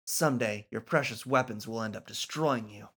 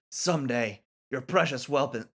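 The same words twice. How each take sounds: First: "precious weapons" said cleanly, "weapons" as "wep-ons"; clean retake. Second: "precious weapon" slurred, "weapon" as "welpon"; flubbed line. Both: Acted. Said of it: "Why can't I not say precious weapon?".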